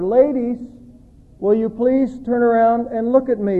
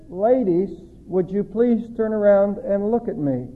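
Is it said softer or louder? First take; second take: louder; softer. First: It is said a little louder. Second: It is said at normal, softer volume.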